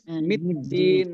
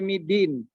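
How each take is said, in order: First: The d sound is doubled and held. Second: The d sound is short and single. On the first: The speaker calls it right. "Harus middin" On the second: The speaker calls it wrong. "jangan juga sampai midin"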